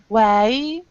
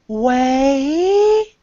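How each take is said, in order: First: The vowel is cut short as the mouth closes. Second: The vowel is held open and full throughout. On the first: The speaker calls it wrong. "So it's not way" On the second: The speaker calls it right. "It's way. That's how we pronounce it"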